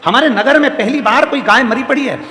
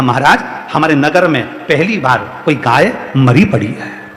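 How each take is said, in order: First: High-pitched, quicker run through the news; urgent report. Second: Grave report. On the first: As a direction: report it in one raised sweep. Same report repeated, urgent. (ऊँचे सुर में, बिना रुके खबर) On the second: Woman reports dead cow, first take. (धीमे, भारी सुर में ठहरकर खबर) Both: Acted.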